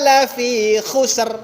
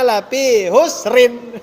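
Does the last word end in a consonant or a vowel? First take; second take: consonant; vowel. First: The last word ends on a bare consonant. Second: The last word ends with an added vowel. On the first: The speaker calls it right. "kan begitu kan harusnya" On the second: The speaker calls it wrong. "Tapi kadang dibaca"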